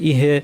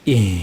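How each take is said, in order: First: The word ends with an added vowel. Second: The word ends on a plain h sound. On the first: The speaker calls it wrong. "আবার ইহে এরকম যেন না হয়" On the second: The speaker calls it right. "নড়বে না"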